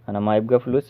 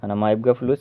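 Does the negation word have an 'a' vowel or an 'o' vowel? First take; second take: a vowel; a vowel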